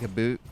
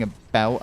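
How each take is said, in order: First: Canadian-accented "about", sounded like "a boot"; semi-Canadian accent. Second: Said in the usual way. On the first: Shown as a demonstration. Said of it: "go into a semi-Canadian accent". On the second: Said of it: "instead of saying".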